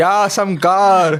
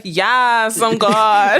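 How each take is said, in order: First: Drawn-out hammed-up God voice; slow, loud mock God. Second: Raised, proud mock God voice; fake God. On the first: Friend echoes the ghost's line as a slow booming fake God. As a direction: stretch it out like a booming fake deity. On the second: Ghost posing as God, corrects friend's take with raised mock voice. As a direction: puff up like a pretend God. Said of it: "No, he's like".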